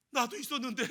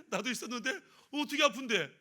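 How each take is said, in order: First: Said in the usual way. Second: Laughing through the question; laughing robber. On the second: Acted. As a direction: chuckle while asking where it hurts. Robber laughs at shared pain.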